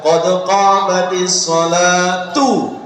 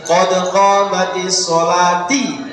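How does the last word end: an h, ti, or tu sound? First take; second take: tu; ti. First: The last word ends with a tu sound. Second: The last word ends with a ti sound. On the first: The speaker calls it right. "komat digandeng itu yang betul adalah" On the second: The speaker calls it wrong. "ojo moco ini"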